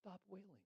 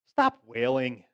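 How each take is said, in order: First: It is said in a gentle, soft tone. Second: It is said in an annoyed, impatient tone. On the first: The speaker is kindly comforting the mourners. "it was probably gentle" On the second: The speaker is irritated with the mourners. "I kind of picture him being annoyed with the wailing"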